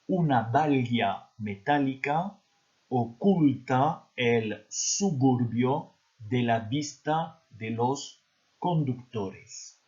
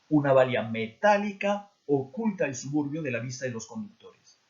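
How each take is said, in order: First: It is read at a slow pace. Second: It is read at normal speed.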